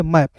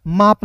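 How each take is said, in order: First: मैप with a short flat a, as in English map; teacher gives the right reading, मैप with a flat a; correct pronunciation. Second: माप with a long aa vowel, as the wrong reading of map; teacher shows the mistake, माप with long aa; wrong pronunciation. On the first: To students, teacher demonstrates the right flat-a reading. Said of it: "उच्चारण ए के रूप में मैप". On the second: To students, teacher demonstrates the wrong long-aa reading. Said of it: "माप नहीं पढ़ना है". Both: Shown as a demonstration.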